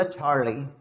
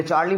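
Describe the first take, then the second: First: "चार्ली" with a breathy, stretched English 'chaar'; their way of Charlie. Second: "चार्ली" with a plain Indian 'ch', evenly said; our way of Charlie. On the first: Teacher showing the native way, "चार्ली" with breathy ch. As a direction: puff the ch of "चार्ली" and draw out the vowel. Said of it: "जबकि वो बोला चार्ली". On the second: Teacher showing how we say it, "चार्ली" unaccented. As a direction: say "चार्ली" in everyday Indian pronunciation. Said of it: "हमने चार्ली बोला उस चीज़ को". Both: Shown as a demonstration.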